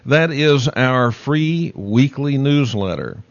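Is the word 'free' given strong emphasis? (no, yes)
no. The word free carries no special emphasis.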